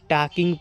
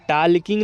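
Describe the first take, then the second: First: टॉकिंग with the L left silent. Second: टॉकिंग with the L pronounced, "taal-king"; sounded L. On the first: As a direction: say टॉकिंग as "taa-king", no L sound. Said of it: "इसको आप टॉकिंग पढ़िएगा". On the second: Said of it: "टॉकिंग नहीं पढ़िएगा". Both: Shown as a demonstration.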